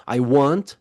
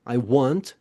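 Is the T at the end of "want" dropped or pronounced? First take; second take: pronounced; pronounced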